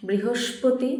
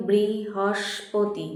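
First: Said in the usual way. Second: বৃহস্পতি drawn out slowly, split into its syllables. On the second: Shown as a demonstration. Teacher helping pupils spell, বৃহস্পতি said syllable by syllable. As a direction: break বৃহস্পতি into slow, separate syllables. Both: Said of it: "বানানটা ঠিক করে নিও".

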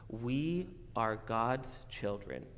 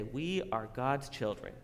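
First: Slow demo. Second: Said in the usual way. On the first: Shown as a demonstration. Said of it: "Can you say, repeat after me?".

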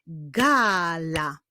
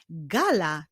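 First: GALA very slowly as GAAA, LA; teacher revealing GAA-LA; syllables drawn out. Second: Said in the usual way. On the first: Shown as a demonstration. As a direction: stretch the first syllable of "gala". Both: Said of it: "zbudowany jest z dwóch sylab".

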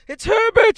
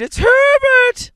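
First: Shrill scream, far higher and louder. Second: Slow shrieking scream, very high and loud; drawn-out scream. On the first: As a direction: shriek his name in wild hope. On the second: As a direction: wail the name out long and desperate. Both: Acted. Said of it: "she screamed".

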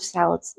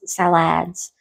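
First: Said in the usual way. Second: "salads" said sal-ADS, second vowel opened up; joke mispronunciation. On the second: Real, not acted. Listing the menu, "salads" playfully said as sal-ADS. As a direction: say "salads" as sa-LADS, rhyming with ads. Repeats word with joke pronunciation.

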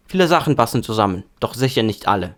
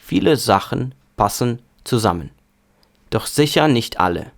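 First: Said in the usual way. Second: Повільно. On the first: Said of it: "І нормальна швидкість". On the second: Shown as a demonstration. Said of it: "спочатку повільно, потім швидко". (повільне навчальне читання німецькою)

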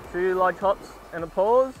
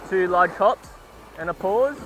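No difference in how they are said.

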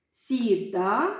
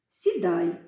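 First: «Сідай» said as сіда with no final й, rising; unfinished word for them to complete; й left off. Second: Said in the usual way. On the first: Shown as a demonstration. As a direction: leave the ending open for the class. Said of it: "я зараз вам покажу". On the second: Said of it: "долучаєтеся до гри".

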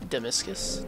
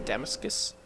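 First: Damascus tried as "duh-MISS-kus", second syllable stressed, rising; trying a pronunciation. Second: Damascus as "DAM-us-kus", stress on the first syllable, rising; trying a pronunciation. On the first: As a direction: test "Damascus" with a weak first syllable and a stressed middle "MISS". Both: Shown as a demonstration. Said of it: "I can never figure out how to say that".

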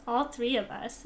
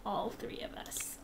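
First: Said in the usual way. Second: Whispered. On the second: Real, not acted. Whispered then repeated plain.

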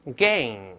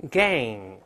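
First: Gang said slowly, open "ae" vowel into a back ng; Gang: spread the lips, then raise the tongue root, not the Chinese 杠; slow model gang. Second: Gang again, shorter, open "ae" with a back ng; gang: spread the lips, then the ng; repeat gang. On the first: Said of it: "大声来了没？". (慢速示范Gang的发音) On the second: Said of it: "再来一遍". (再读一遍gang) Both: Shown as a demonstration.

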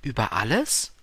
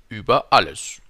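First: ALLES rising as a question; staunende Rückfrage. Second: ÜBER ALLES louder, falling, plainly stated; König, große Einfachheit. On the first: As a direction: echo Über alles wonderingly, ending upward. Prince repeats it as question. („Über alles“ fragend, am Ende steigend) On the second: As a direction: say Über alles as a loud, simple royal fact. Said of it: "antwortete der König mit großer Einfachheit". („Über alles“ laut und fallend festgestellt) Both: A narrator's reading.

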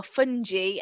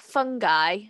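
First: Fungi said as FUN-jee; programme's pronunciation. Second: Fungi said as FUN-guy; hard-g pronunciation. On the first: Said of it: "as I think it's supposed to be pronounced". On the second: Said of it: "supposed to be pronounced from that program". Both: Shown as a demonstration.

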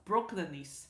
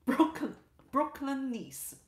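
First: Said in the usual way. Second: Put-on Brooklyn accent. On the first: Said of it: "What is Brooklynese?". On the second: Streamer reading a chat comment, light Brooklyn accent. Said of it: "in addition to English, I speak".

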